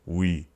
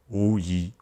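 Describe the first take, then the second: First: Two vowel sounds glide quickly into one. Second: Two vowel sounds are said slowly and apart. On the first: "say that faster and faster until it sounds we" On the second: "you would be saying this letter as wu yi"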